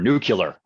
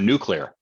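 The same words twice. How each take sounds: First: It is said with a Southern US pronunciation. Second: It is said with a standard pronunciation.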